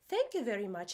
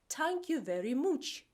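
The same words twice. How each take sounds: First: It is said in a standard accent. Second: It is said in a Dublin accent.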